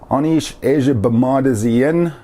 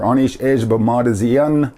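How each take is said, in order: First: Every syllable is said fully and carefully. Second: Syllables are run together quickly and reduced.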